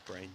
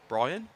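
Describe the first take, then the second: First: The name is said as one syllable. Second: The name is said as two syllables. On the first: The speaker calls it wrong. "told me it was Breen" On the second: The speaker calls it right. "Spelt Breen, but pronounced Brian"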